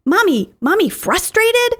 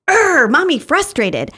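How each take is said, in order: First: Put-on higher, light little-kid question; toddler voice, questioning. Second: Higher, slower, a bit louder, growl first; little kid growling, then stating it plainly; toddler growl and statement. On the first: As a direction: voice a small child asking about mom. Toddler repeats mom's feeling word. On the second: Retold or imitated. Toddler growls then names feeling.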